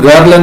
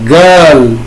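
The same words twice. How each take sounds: First: The vowel is said short and plain. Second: The vowel is drawn out long. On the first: The speaker calls it wrong. "इसको हम गर्ल नहीं बोलेंगे" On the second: The speaker calls it right. "सभी में लंबा आ है"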